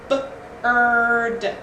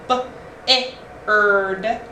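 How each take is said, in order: First: No separate vowel sound comes before 'erd'. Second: A separate vowel sound comes before 'erd'. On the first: The speaker calls it right. "the I R just makes that R sound" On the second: The speaker calls it wrong. "no, that doesn't make sense"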